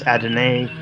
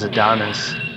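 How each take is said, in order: First: The name ends with an 'eye' sound. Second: The name ends with an 'iss' sound. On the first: The speaker calls it right. "it's Adonai" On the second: The speaker calls it wrong. "I made that mistake for years. I always thought that it was Adonis"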